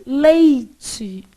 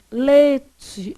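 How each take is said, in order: First: "Leite" drawn out with the I clearly sounded; careful, stretched "Leite" keeping its I; imitated full diphthong. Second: "leite" drawn out as "lê-tchi", no I; stretched "leite" with a plain ê; imitated dropped vowel. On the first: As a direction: mimic a boy trying "Leite" as "lei-tchi". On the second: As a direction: mimic a boy trying "leite" without its I. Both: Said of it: "Aí ele".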